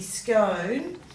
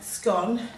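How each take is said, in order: First: The vowel rhymes with tone, a long o. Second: The vowel rhymes with gone, a short o. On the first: "in American English, scone rhymes with tone" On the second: "In British English, scone rhymes with gone"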